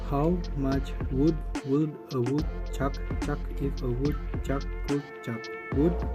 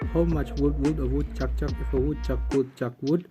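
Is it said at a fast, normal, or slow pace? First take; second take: slow; fast. First: It is said at a slow pace. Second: It is said at a fast pace.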